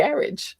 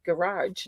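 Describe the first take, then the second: First: "garage" as GARR-idge, first syllable stressed; British-style garage. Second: "garage" as guh-RAHZH, stressed at the end; long ah in the second syllable of "garage"; old-habit garage. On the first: So used to the husband's way, GARR-idge "garage". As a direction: rhyme "garage" with carriage. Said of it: "so used to just saying". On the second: Finding it weird to say now, guh-RAHZH "garage". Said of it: "weird for me to say". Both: Shown as a demonstration.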